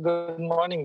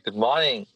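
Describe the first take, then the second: First: It is said quietly, without energy. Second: It is said loudly and vocally.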